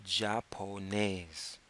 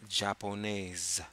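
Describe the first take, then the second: First: "japonaise" slow, with a hard h at the start; drawn-out "japonaise", j as a Spanish h; French japonaise. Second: Slow "japonaise", the j as zh; corrected japonaise. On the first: Teacher showing the word, slow with a Spanish j. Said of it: "the way you say Japanese in French is". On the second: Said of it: "the J is actually a, a J". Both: Shown as a demonstration.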